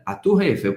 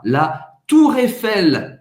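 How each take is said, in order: First: Said in the usual way. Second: Slow and a little higher; "la Tour Eiffel" slow, with a French R and stress on the last syllable; careful French. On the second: Shown as a demonstration. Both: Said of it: "Presta bem atenção na pronúncia".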